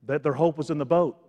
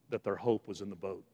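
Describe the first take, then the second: First: Firm, full-voiced restatement; emphatic repeat. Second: Soft, low first statement; hushed. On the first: Preacher repeats "hope was in the boat" to congregation, emphatic. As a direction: bring home "That their hope was in the boat". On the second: Preacher tells congregation what disciples knew, hushed. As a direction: let it drop quietly, low in pitch. Quiet first take, then stronger repeat. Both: Real, not acted.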